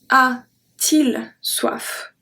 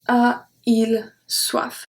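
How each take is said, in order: First: A t sound links the two vowels. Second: The two vowels meet with no sound between. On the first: The speaker calls it right. "we add a T in the middle" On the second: The speaker calls it wrong. "It just doesn't sound good"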